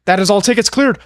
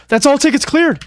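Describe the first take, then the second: First: Excited. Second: Higher excited shout. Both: Real, not acted.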